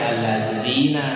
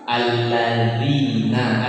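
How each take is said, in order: First: The middle consonant is a buzzing 'z' sound. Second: The middle consonant is a soft 'dh' sound. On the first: The speaker calls it wrong. "jangan dibaca allazina, udah salah itu" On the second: The speaker calls it right. "itu dha"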